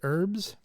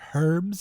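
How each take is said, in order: First: The word starts without an H sound. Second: The word starts with a clear H sound.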